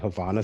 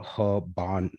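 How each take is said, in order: First: The middle consonant is a 'v' sound. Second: The middle consonant is a 'b' sound. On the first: The speaker calls it wrong. "I've heard people pronounce it Havana syndrome" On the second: The speaker calls it right. "but it's actually Habana"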